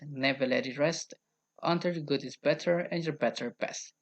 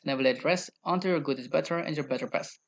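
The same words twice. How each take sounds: First: It is said at a slower pace. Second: It is said at a faster pace.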